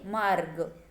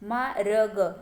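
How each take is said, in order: First: The r is joined before the g sound. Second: Each letter is said as a separate syllable. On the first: The speaker calls it right. "इस तरह से पढ़ना है।" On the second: The speaker calls it wrong. "तो ये मा र ग ऐसे पढ़ेंगे क्या? नहीं।"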